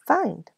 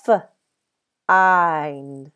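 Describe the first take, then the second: First: "Find" said whole in one smooth go; blended word. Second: "F-" held apart, then "eind"; segmented sounds. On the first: Teacher blends the sounds for first graders. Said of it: "try to figure out what word". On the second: Teacher sounds out find for young pupils, split apart. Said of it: "listen as I say the sounds". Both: Shown as a demonstration.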